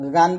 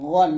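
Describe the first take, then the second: First: The syllable is said light and thin. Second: The syllable is said full and heavy. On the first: The speaker calls it wrong. "গান বলবেন না" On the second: The speaker calls it right. "গান মোটা করে বলবেন"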